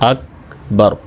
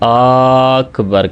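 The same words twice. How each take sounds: First: Both vowels are kept short. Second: The first vowel is drawn out long. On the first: The speaker calls it right. "तो सही तलफ़ुज़ क्या है?" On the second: The speaker calls it wrong. "यानी हमज़ा को लंबा कर देते हैं"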